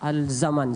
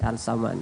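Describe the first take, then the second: First: The name is said with a z sound. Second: The name is said with an s sound. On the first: The speaker calls it wrong. "Z ya?" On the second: The speaker calls it right. "S, oh S"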